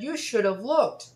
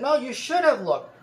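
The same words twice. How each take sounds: First: High, slow mock scolding; slow, raised complaint from the scooter lady. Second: High, loud insisting; insistent scolding. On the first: Lady's complaint acted out. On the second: Retold or imitated. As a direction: shove it back at him, louder and higher. Lady insisting again, quoted.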